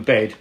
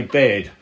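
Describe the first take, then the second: First: Said in the usual way. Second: "bed" with an A-like vowel, near "bay-ed"; old London "bed", vowel stretched toward A; nan's pronunciation. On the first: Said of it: "rather than bed". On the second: Retold or imitated. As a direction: say "bed" as nan did, almost with an A. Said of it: "my nan used to say bed".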